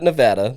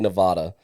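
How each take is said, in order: First: It uses the local Nevada pronunciation. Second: It uses the East Coast pronunciation. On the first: The speaker calls it right. "you said it Nevada. That's great" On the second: The speaker calls it wrong. "a lot of people on the East Coast like to say Nevada, and it really drives people crazy out there"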